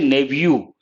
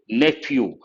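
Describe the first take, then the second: First: The middle consonant is a v sound. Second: The middle consonant is an f sound. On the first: This is the American pronunciation. "But Americans say nephew" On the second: This is the British pronunciation. "In British English, P H pronounced as a letter F"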